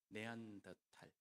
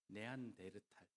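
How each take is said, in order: First: It is said in four syllables, without 'reu'. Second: It is said in five syllables, with 'reu'. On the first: This follows the original German name. The speaker calls it right. "네안더탈이 맞습니다" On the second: This follows the Japanese rendering. The speaker calls it wrong. "일본의 발음을 영향을 받아서 그렇습니다"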